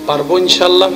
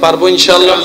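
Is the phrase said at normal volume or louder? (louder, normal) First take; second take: normal; louder. First: It is said at a normal volume. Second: It is said louder than before.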